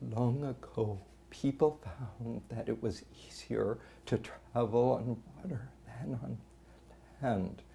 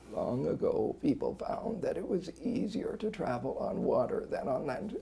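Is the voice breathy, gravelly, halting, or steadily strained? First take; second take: breathy; gravelly. First: Voice leaks air, struggling to keep folds closed. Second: Strained voice with a rough, gravelly quality. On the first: "the person's working to keep the vocal folds together" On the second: "A strain that's got more gravel in it"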